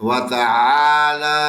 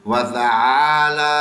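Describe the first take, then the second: No difference in how they are said.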